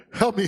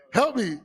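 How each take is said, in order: First: Loud pleading cry for help; mock cry for help. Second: Louder, higher cry for help. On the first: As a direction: yell for help, playing beaten. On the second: Pretend. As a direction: really yell for help. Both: Pretend beaten man crying out.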